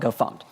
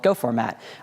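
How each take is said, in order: First: The name is said as 'go fumpt'. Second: The name is said as 'go format'. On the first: "one of those weird people who pronounces it GoFumped" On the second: "a handy utility for formatting source code called GoFormat"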